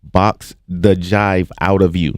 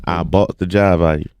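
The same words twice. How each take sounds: First: "Box the jive out of you" slowly, word by word; slow, separated words in "Box the jive out of you"; careful translation. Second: Imitated Savannah Southern accent; thick Savannah pronunciation. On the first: Shown as a demonstration. Spells out the accented phrase. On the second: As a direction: run it together like a Savannah local. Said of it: "That's Savannah".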